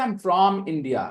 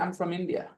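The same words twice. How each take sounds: First: The word from has a full vowel. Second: The word from is reduced with a schwa. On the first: The speaker calls it wrong. "I don't say" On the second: The speaker calls it right. "when I say it in a sentence, I say"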